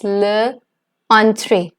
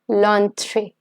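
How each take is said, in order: First: The article and noun are said as separate words. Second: The article and noun are joined into one word.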